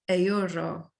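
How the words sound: It is said with Spanish pronunciation. "in the Spanish pronunciation"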